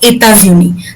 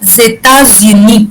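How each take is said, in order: First: It begins directly with the vowel. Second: It begins with a linking z sound. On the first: "ताकि आप ई को आराम से आइडेंटिफाई कर सकते हो" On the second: "ज की थोड़ी सी आवाज आएगी आपको"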